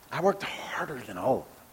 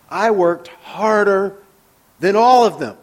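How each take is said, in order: First: Much softer, musing echo; quiet ironic repeat. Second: Slow, higher and louder, leaning on every word; Paul's boast read with force; emphatic read. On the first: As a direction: turn the boast over skeptically under your breath. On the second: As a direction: proclaim it proudly. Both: Shown as a demonstration.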